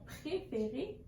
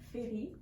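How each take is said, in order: First: All syllables are said, the missing one emphasized. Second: The first syllable of the word is dropped. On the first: The adult gives the correct model. The speaker calls it right. "en insistant avec notre voix sur la partie qui a été erronée ou oubliée" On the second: A child mispronounces the word. The speaker calls it wrong. "il y a eu une erreur de prononciation"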